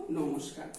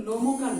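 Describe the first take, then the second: First: নমস্কার with the s sounded, as "nomosh-kar"; s pronounced. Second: নমকার said without an s, as "nomo-kar"; s left out. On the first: Teacher answering what we say for the whole word, নমস্কার with its s kept. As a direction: lower voice, keep the sh sound before "kar" in নমস্কার. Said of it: "পুরো শব্দটা উচ্চারণ করবো তখন কি বলবো". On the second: Teacher showing pupils what not to say, নমকার with the s dropped. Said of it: "আমরা কিন্তু নমকার বলবো না". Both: Shown as a demonstration.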